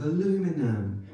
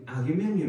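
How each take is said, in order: First: Aluminum the American way, without the extra "i"; American pronunciation. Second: Aluminium with the British extra "i" syllable; British pronunciation. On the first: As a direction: say "aluminum" as a-LOO-mi-num. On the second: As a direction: say "aluminium" as al-yoo-MIN-ee-um. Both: Shown as a demonstration. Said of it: "words he doesn't get to say in America".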